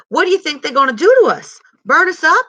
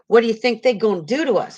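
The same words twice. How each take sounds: First: Much higher and louder, urgent; a small boy bursting with alarmed excitement; excited. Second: Said in the usual way. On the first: A narrator's reading. Little brother asking Stacy what the night men will do, excited and loud. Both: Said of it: "said little man excitedly".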